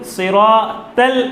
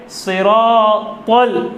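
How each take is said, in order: First: सिरातल said light, like seen; thin seen sound. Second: सिरातल slow with a full, heavy saad. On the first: Teacher demonstrates the mistake, light saad. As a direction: read सिरातल thin, the wrong way. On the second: Teacher shows correct heavy saad, slow. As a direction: draw out सिरातल with a thick saad. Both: Shown as a demonstration. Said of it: "सिरातल नहीं है".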